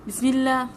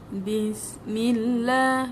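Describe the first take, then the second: First: It is said very fast, with sounds run together. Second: It is said slowly, with each sound pressed clearly. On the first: The speaker calls it wrong. "terlampau laju" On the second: The speaker calls it right. "kena tekanlah masuk dalam sabdu tu"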